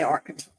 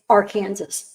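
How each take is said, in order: First: The word does not end like 'Kansas'. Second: The word ends sounding like 'Kansas'. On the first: This is the usual way others say it. The speaker calls it wrong. "we don't say Arkansas" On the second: This is how people in Kansas say it. The speaker calls it right. "It's Arkansas"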